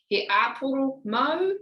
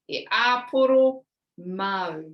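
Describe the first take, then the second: First: The voice rises at the end. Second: The voice falls at the end. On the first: It asks whether the person wants an apple. "for a question, we go up at the end of our sentence" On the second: It states that the apple is for the person. "You take out the question part"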